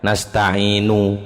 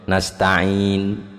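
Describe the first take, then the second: First: The final vowel after the n is fully voiced. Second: No final vowel is heard after the n. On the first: "ada nunya tapi gak nasta'inu, gak gitu" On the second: "kalau ismam ya nasta'in ndak kerungu, ndak ono munine"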